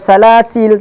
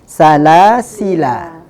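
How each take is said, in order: First: The word ends on a consonant sound. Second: The word ends on a vowel sound. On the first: The speaker calls it wrong. "enggak dibaca salasil" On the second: The speaker calls it right. "tapi salasila"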